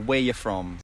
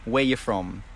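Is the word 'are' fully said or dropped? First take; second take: dropped; dropped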